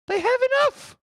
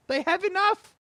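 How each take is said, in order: First: Very high, louder squeal with enough rising at the end; shrieked exasperation. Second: Much higher, squeaky voice on enough, rising at the end; exasperated squeak. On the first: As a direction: push the same line up into a squeal. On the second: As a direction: squeak it out in disbelief. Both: Acted. Mocking the greedy rich.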